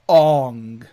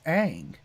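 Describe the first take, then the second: First: The vowel is a rounded 'aw' sound. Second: The vowel is an open 'a' sound. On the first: This is the film's changed pronunciation. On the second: This is the pronunciation everyone already used.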